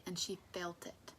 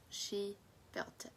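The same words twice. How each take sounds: First: Said in the usual way. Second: Slow, with weight on "She"; emphasized repeat. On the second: Shown as a demonstration. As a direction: spell out "She felt it" slowly for emphasis. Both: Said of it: "That's an important thing to note".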